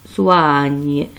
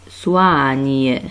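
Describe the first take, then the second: The two takes are said the same way.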